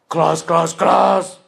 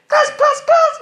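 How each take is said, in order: First: It is said in a king's voice. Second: It is said in a kid's voice. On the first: "King's voice" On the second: "Kid's voice"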